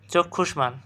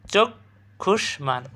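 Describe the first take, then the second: First: Said in the usual way. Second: চক্ষুষ্মান slow, "chok... khush-man"; syllable by syllable. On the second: Shown as a demonstration. Teacher telling students to take note, slow syllable demonstration. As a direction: break চক্ষুষ্মান after "chok", stretching each part. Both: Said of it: "দেখো, খেয়াল করো".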